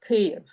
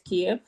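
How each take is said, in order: First: The name is said the Ukrainian way. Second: The name is said the Russian way. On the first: "and Ukrainian is Kyiv" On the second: "the Russian pronunciation is Kiev"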